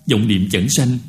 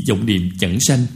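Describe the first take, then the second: No difference in how they are said.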